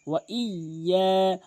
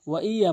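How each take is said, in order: First: Slow ওয়া ইয়া with held double y; drawn-out ওয়া ইয়া; correct doubled ya. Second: Quick ওয়া ইয়া with single y; ওয়া ইয়া short, no stretch; common mispronunciation. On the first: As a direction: lean on the y in ওয়া ইয়া, hold আ. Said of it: "double উচ্চারণ করতে হবে". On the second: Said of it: "ওয়া ইয়া বলে". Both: Shown as a demonstration.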